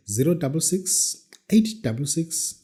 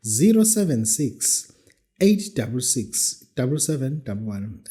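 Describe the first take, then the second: First: Slowed right down, digit by digit; slow school dictation. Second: Slow and clear digits; slow school dictation. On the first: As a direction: spell out each number slowly. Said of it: "I repeat the number slowly". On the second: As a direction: dictate carefully to listeners. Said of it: "Let me repeat the number". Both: Shown as a demonstration.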